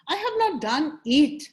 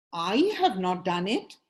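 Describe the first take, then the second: First: "it" punched louder at the end; emphasize the final "it", as if meaning only this one; stress on IT. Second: Emphasize "I", as if someone else is responsible; stress on I. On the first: Coach demonstrating emphasis on the right word, stressing "it". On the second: Coach demonstrating emphasis on the right word, stressing "I". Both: Shown as a demonstration. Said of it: "emphasize on the right word".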